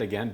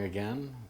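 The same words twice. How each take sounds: First: The word sounds raised and upbeat. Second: The word sounds flat and disappointed. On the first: The speaker calls it right. "I got to raise my tone" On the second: The speaker calls it wrong. "Don't sound disappointed when you say again"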